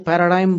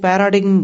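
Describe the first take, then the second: First: It ends like 'dime' with no g sound. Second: A g sound is heard before the final m. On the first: This is how foreign-trained speakers say it. "Foreigners जो उसका उच्चारण करते हैं ... वो पैराडाइम बोलते हैं" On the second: This is how Indian-trained speakers say it. "Indian जो doctors होते हैं ... वो पैराडिग्म बोलते थे"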